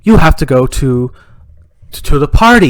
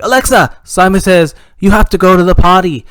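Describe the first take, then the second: First: Alexa's reply with PARTY said as "par-tee"; halting device reply landing on PARTY with an R. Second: Raised command voice, POTTY with no R sound; potty without R. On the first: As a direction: put a clear R in PARTY, louder. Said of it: "Alexa would say". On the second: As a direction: say POTTY as "pah-tee", higher and loud. Dad commands the smart speaker. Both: Acted.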